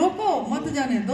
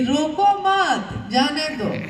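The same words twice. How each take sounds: First: The pause comes right after 'roko'. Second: The pause comes right after 'mat'.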